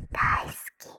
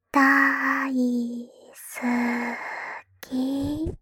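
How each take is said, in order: First: Whispered confession. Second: 大好き blurted out louder; bursting confession. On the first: Little sister confessing to her brother, whispered. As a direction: let 大好き slip out in a hushed whisper. Repeats daikuki, soft then loud. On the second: Little sister confessing to her brother, louder outburst. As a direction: throw 大好き out with a sudden swell. Repeats daisuki, soft then loud. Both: Acted.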